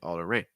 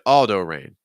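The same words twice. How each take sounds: First: The stress falls on the last name. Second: The stress falls on the first name. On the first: The speaker calls it right. "you stress your last name" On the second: The speaker calls it wrong. "that's not how you introduce yourself"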